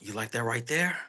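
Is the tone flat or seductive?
seductive. It is said in a seductive, persuasive way.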